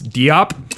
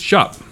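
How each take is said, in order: First: The name starts without a J sound. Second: The name starts with a J sound. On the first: The speaker calls it wrong. "we got that wrong on our last pod" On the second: The speaker calls it right. "With the J sound"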